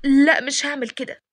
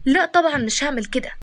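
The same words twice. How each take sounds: First: A touch of reluctance on لا; mildly wavering no, lightly acted; hesitant refusal. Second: Firm mild protest on لا; lightly indignant no; objecting refusal. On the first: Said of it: "وبعد كده قالت بتردد". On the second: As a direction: refuse outright, understated acting. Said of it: "قالت باعتراض". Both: A narrator's reading.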